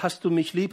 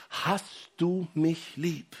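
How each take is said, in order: First: Said in the usual way. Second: "Hast du mich lieb?" drawn out slowly, weight on "du"; slow earnest question. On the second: Shown as a demonstration. Pastor voicing Jesus asking Peter, slow and tender on "du". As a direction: ask it slowly, leaning on "du". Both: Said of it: "indem er dreimal fragt".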